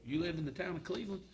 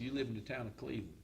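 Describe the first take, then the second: First: It is said in an impressed, interested tone. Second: It is said in a dismissive, unimpressed tone. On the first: The town is admired. "complete different attitude" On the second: The town is looked down on. "When we started on this journey eight years ago"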